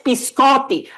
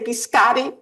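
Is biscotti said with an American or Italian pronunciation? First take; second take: Italian; American. First: The word is said with an Italian pronunciation. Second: The word is said with an American pronunciation. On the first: The speaker calls it right. "It's biscotti" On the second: The speaker calls it wrong. "please don't say biscotti"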